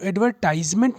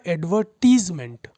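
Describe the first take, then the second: First: The third syllable has a long 'tize' sound. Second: The third syllable has a short 'tiz' sound. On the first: The speaker calls it wrong. "एडवर्टाइजमेंट नहीं बोलेंगे हम" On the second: The speaker calls it right. "Advertise का noun क्या होगा? एडवर्टीजमेंट"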